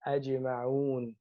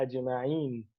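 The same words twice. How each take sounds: First: Ajma'un with u ending, the right form; correct form ajma'un. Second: Ajma'in slowly, the rejected ending; wrong form ajma'in. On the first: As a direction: give ajma'un its waw ending. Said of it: "he said". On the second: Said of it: "Allah did not say ajma'in". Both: Shown as a demonstration.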